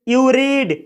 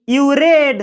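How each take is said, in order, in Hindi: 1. read में स्वर लंबा ee है। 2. read में स्वर छोटा e है। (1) "मैं इसका उच्चारण रीड कर रहा हूं" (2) "अगर मैं इसी सेंटेंस को इस तरीके से पढ़ूं"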